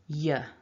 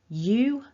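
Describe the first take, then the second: First: The word is said with a reduced vowel. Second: The word is said with a full vowel.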